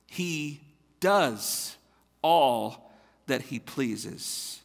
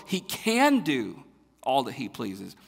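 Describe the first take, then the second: First: Slow and spaced, "does" and "all" hit one by one; slow stress on does and all. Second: "can" leaned on as the point, a little slow; stress on can. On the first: Pastor correcting the misreading of the psalm, slow stress on "does". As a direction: set each word down, pausing between them. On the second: Pastor showing the wrong reading of the psalm, stress on "can". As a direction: read it the misleading way, pushing "can". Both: Shown as a demonstration. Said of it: "That's not what the verses say".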